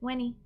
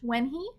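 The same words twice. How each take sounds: First: The H is dropped, linking into 'wenny'. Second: The H at the start of 'he' is pronounced. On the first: "it's faster and easier to just skip it" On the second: "You can say the H"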